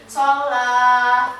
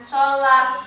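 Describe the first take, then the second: First: The final vowel is held long. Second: The final vowel is short. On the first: The speaker calls it right. "ini dibaca panjang dua harokat" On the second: The speaker calls it wrong. "bukan sholah, enggak"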